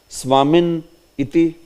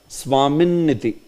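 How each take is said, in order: First: There is a break before the final vowel part. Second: It is said joined, with no break at all. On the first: The speaker calls it wrong. "you cannot pronounce it like" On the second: The speaker calls it right.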